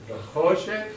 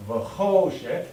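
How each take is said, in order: First: "choshek" with a raised, rising pitch, a little louder; voice inflection. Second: "choshek" raised and slow, a little louder; voice inflection. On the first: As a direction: lift "choshek" higher and let it rise. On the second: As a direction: say "The choshek" slowly with the lift on "choshek". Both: Shown as a demonstration. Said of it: "inflect the voice again".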